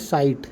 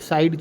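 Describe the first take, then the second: First: The word ends with a t sound. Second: The word ends with a d sound. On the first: The speaker calls it right. "वो साइड नहीं है, वो है साइट" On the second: The speaker calls it wrong. "हमारे local language में लोग बोलते हैं साइड"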